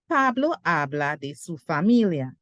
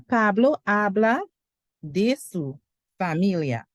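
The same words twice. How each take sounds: First: It is said smoothly, in flowing phrases. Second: It is said slowly, word by word.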